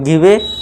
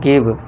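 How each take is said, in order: First: A vowel sound is added after the final v. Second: The word ends on the v with no vowel. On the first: The speaker calls it wrong. "अगर ई को हम लेके चले पढ़े" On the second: The speaker calls it right. "ई को silent कर देते हैं"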